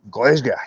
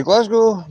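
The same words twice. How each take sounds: First: GLASGOW said "Glez-ga"; real local term. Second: GLASGOW said "Glaz-go"; common pronunciation. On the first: Giving the real term for it, Glasgow as "Glez-ga". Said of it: "the actual real term for it". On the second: Showing what most people say, Glasgow as "Glaz-go". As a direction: say Glasgow with open "a" and full "go". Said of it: "Most people will say Glasgow". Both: Shown as a demonstration.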